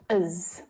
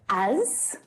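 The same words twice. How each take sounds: First: The word is unstressed with a schwa vowel. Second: The word is stressed with a full vowel. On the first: "but it's often unstressed" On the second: "So it can be stressed"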